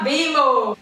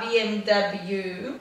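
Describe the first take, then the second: First: The last letter is shortened to an oh sound. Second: The last letter is said in full as double-u. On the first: This is how Australians say it. "você fala assim" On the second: This is the standard full form. "você não precisa falar BMW"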